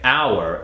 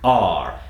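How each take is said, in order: First: The word sounds like 'hour'. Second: The word sounds different from 'hour'. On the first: It refers to time. "if you're referring to time, like two hours" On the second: It is the possessive word. "I'm almost going to have you replace it with our"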